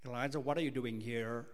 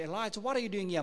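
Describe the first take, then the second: First: It is spoken in an American accent. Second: It is spoken in an Australian accent. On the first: "If you're from America, God will say" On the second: "If you're from Australia, God will say"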